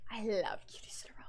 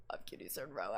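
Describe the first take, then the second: First: Fast breathy whisper of love for her; soft whispered fangirl line; whispered gush. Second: Much lower, softer whispered repeat; dreamy hushed whisper, nearly gone. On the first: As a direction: whisper it like a secret crush. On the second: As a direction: let it sink into a hushed whisper. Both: Retold or imitated. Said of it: "me saying I love Cutie".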